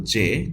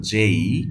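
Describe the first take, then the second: First: Short J name without glide; plain clipped-off "জে" vowel; common mispronunciation. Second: "জেই" with a gliding ay ending; letter J as "jay-ee"; corrected pronunciation. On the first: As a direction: say "জে" the common learner's way. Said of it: "এটা আসলে জে না". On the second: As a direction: stretch "জেই" into a rising glide. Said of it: "এটা হলো জেই". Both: Shown as a demonstration.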